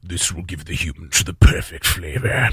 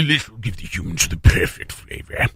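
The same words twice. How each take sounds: First: Low, slow alien villain voice; deep, deliberate cartoon alien, not much saliva; Sarek the Preparer. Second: Low alien villain voice slurping with saliva; deep cartoon alien with a mouthful of spit; Sarek the Preparer. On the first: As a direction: James Earl Jones-style alien, drawn out low and slow. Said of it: "This is a great Sarek the Preparer". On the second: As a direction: James Earl Jones-style alien, wet and drooling. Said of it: "And not enough saliva".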